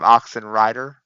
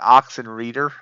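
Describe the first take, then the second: First: The last part sounds like 'rider'. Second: The last part sounds like 'reader'. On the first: The speaker calls it right. "instead of" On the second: The speaker calls it wrong. "most people try to pronounce it"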